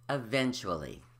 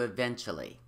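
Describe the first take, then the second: First: Every syllable is pronounced. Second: One syllable is left out. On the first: The speaker calls it right. "But the word is eventually" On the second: The speaker calls it wrong. "gets reduced to eventually"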